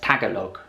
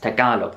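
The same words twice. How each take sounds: First: The middle syllable lacks an open ah sound. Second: The middle syllable has an open ah sound. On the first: The speaker calls it wrong. "a lot of foreigners pronounce Tagalog wrong" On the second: The speaker calls it right. "The middle syllable kind of has a ah sound"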